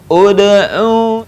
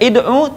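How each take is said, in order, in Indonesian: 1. Kata ini diawali vokal u. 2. Kata ini diawali vokal i. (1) "tapi ud'u" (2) "tidak dibaca id'u"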